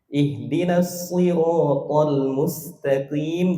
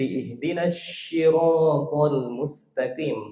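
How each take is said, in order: First: The word begins with an emphatic s. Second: The word begins with a sh sound. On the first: The speaker calls it right. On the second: The speaker calls it wrong.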